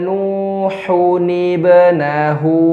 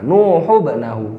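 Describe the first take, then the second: First: The n is kept and linked with an i sound. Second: The n is dropped, running straight into bnahu. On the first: The speaker calls it right. "cara bacanya seperti ini" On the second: The speaker calls it wrong. "Kesalahan pertama"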